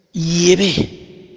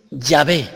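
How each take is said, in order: First: Yahvé pronounced "iebe" with a open e ending; Yahvé as iebe, one of the variants. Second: Yahvé pronounced "yabe", stressed final é; Yahvé as yabe, the other variant; Yahvé with y-glide. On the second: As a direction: say Yahvé as "yabe", a firm y sound and open a. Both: Shown as a demonstration. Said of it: "Otros dicen que es".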